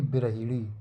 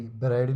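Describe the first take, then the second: First: बिरहिड़ी with short i after h; correct form. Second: बिरहड़ी with no i after h; rejected form. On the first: Teacher correcting the word, short i after h in बिरहिड़ी. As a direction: sound "hi" clearly in बिरहिड़ी. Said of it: "हाँ में छोटी की मात्रा". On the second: Teacher rejecting the wrong word, no i in बिरहड़ी. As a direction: run h straight on in बिरहड़ी. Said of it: "बिरहड़ी नहीं". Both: Shown as a demonstration.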